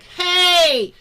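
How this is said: The shout is squeezed from a tight throat.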